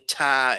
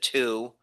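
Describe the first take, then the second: First: The vowel is reduced to a weak 'uh'. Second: The vowel is a full, clear 'oo'. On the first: The speaker calls it wrong. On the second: The speaker calls it right.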